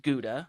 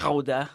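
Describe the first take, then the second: First: It is said with an American English pronunciation. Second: It is said with a Dutch pronunciation. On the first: "the American English pronunciation is Gouda" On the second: "if you go overseas to the Netherlands ... they'll say"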